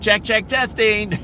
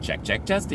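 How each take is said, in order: First: The words are said at a louder volume. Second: The words are said at a normal volume. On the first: This is how the AI voice said it back. "It would say it louder" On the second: This is how the speaker said it. "And I would say"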